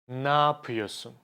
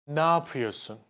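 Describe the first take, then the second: The two takes are said the same way.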